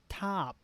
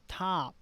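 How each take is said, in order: No difference in how they are said.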